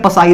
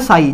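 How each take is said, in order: First: The word starts with a p sound. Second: The word starts with an s sound. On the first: The speaker calls it wrong. "पसाई नहीं बोलते हैं" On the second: The speaker calls it right. "जिसमें P silent होता है"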